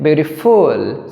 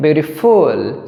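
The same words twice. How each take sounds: First: The stress is on the third syllable. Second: The stress is on the third syllable.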